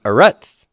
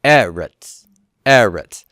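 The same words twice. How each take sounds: First: Eretz with the stress wrongly on the last syllable, eh-RETS; stress on second syllable. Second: Eretz with the stress on the first syllable, EH-rets, falling. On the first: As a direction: say eretz as eh-RETS, pitch rising on the end. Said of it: "It's not eretz". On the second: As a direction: punch the opening of eretz: EH-rets. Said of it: "you see the first syllable stress". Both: Shown as a demonstration.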